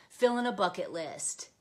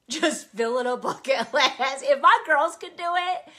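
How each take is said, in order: First: Said in the usual way. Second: Louder, with laughter breaking into "list"; giggling while repeating "Just filling a bucket list"; laughing. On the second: Real, not acted. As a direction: laugh through the joke at yourself. Laughs at her own joke.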